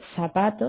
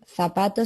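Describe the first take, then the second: First: The first consonant is an s sound. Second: The first consonant is a th sound. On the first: "se dice la S" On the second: "en vez de decir la Z o la C"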